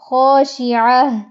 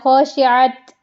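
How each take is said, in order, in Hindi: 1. यह शब्द 'h' की आवाज़ पर खत्म होता है। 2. यह शब्द 't' की आवाज़ पर खत्म होता है। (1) "गोल ता जब आएगी तो उसको गोल हा में बदलना" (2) "ख़ाशिअत ऐसे नहीं"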